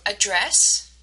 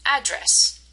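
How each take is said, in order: First: "address" with stress on DRESS; slowly, weak first syllable in "address", strong "dress"; second-syllable stress. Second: "address" as AD-dress, first syllable stressed. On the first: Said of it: "the way that we say them". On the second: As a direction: slowly punch the AD in "address". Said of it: "the first part". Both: Shown as a demonstration.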